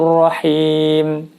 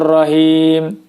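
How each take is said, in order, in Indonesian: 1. Bunyi h berhembus kuat. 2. Bunyi h hanya sedikit berhembus. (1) "keluar udara dari mulut kita" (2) "Tentu saja itu tidak tepat"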